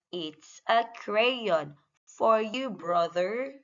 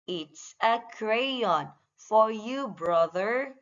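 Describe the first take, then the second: No difference in how they are said.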